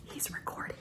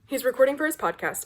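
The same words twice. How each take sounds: First: Hushed, fully whispered aside. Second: Said in the usual way. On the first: Real, not acted. Vlogger near husband's podcast recording, whispering. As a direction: whisper so the recording isn't disturbed.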